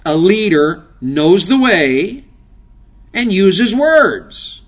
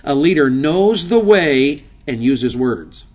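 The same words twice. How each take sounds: First: Each phrase slowed down and hit louder; slow, punched preacher's repeat; slow, emphatic repeat. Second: Said in the usual way. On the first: Shown as a demonstration. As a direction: drive the words home one by one.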